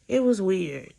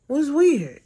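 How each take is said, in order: First: Said in the usual way. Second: "weird" said high and loud, drawn out in disbelief; stressing that "Was weird" was truly weird; emphatic repeat. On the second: Real, not acted. Recounting the sister's texts, repeating "weird" high and loud.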